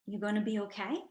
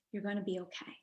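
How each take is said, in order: First: Rising question tune on okay; soft questioning you gonna be okay; asked as a question. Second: Quiet, settled statement with no rise on okay; a quiet promise that okay will hold; heard as a statement. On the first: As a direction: let okay lift up like a real question. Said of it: "he asked it in a question". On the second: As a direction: say okay falling, as a firm reassurance. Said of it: "what I actually heard was". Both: Retold or imitated.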